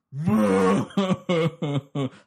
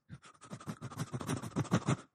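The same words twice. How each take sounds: First: Big loud bawling sob; loud wailing. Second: Soft, breathy little whimper; quiet whimper. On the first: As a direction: let it all out in a howl. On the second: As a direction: whimper softly like a lost boy. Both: Shown as a demonstration. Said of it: "cried like this".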